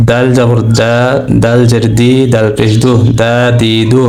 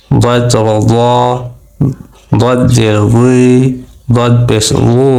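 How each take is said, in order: First: দা, দি, দু with a light, thin d. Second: দ, দুই, উ with a heavy, grave consonant, drawn-out rounded vowels; thick heavy dad. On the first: Teacher drilling the letter dal, thin দা দি দু. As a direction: keep the d in দা দি দু light. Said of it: "পাতলা করে পড়বে". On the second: Teacher drilling the letter dad, thick grave দ. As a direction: say দদ solemnly and full-mouthed. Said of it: "একটু গম্ভীর আওয়াজে". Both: Shown as a demonstration.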